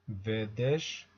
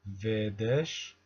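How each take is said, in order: No difference in how they are said.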